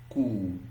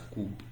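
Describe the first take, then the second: First: No p sound is heard at the end. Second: A p sound is heard at the end. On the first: The speaker calls it right. "This P is silent in this word" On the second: The speaker calls it wrong. "some of you you want to pronounce this as scoop. You are wrong"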